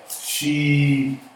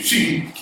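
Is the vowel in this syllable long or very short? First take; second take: long; very short. First: The vowel is long and full. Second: The vowel is very short. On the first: The speaker calls it wrong. "I would not pronounce this S H E like she" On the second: The speaker calls it right. "will get off that E real quick"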